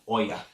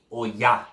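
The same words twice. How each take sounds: First: Oya as OY-uh, stressed up front; wrong pronunciation. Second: Oya said o-YA, weight on the end; stress on the A. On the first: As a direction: show the mistaken Oya with a weak ending. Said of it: "Her name is not". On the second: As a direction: correct Oya, landing firmly on YA. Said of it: "Emphasis on the A". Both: Shown as a demonstration.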